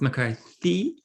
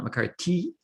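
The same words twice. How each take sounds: First: The name is said with a clear th sound. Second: The name is said without a clear th sound. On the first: The speaker calls it right. "it's McCarthy" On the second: The speaker calls it wrong. "It's not McCarthy"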